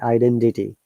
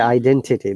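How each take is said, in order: First: The t is pronounced like a d. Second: The t is pronounced as a clear t. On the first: "they say identity. The T sounds like D" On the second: "we say identity"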